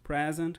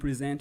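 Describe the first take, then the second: First: It is pronounced as the noun form. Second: It is pronounced as the verb form. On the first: It means a gift. "quando você dá um presente para alguém" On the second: It means to show or introduce something. "ou quando você apresenta algo"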